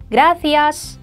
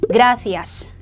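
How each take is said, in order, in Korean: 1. 강세는 gra 음절에 옵니다. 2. 강세는 gra 음절에 옵니다.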